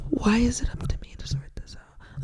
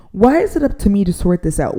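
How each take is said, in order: First: Whispered to keep from shouting; fed-up whisper holding back a shout; restrained whisper. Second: Said in the usual way. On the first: Real, not acted. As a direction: whisper it so you don't yell. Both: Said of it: "I'm trying to whisper so I don't shout".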